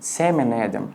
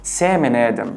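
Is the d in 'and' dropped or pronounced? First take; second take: dropped; dropped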